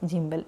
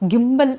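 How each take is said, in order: First: The word begins with a soft j sound. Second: The word begins with a hard g sound. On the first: This is how the speaker usually says it. "ഞാൻ ജിംബൽ എന്നാണ് പറയാറുള്ളത്" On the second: This is how some other people say it. "ഗിംബൽ എന്നൊക്കെ പറയുന്നത് കേൾക്കാം"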